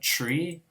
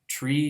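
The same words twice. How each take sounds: First: The word begins with a ch-like sound. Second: The word begins with a plain t sound.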